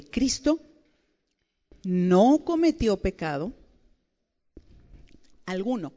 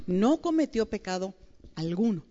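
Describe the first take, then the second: First: Slow reading. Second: Said in the usual way. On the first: Shown as a demonstration. Preacher reading scripture slowly to the women. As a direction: read it slowly, word by word, leaning on cometió. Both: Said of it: "lo voy a leer lentamente".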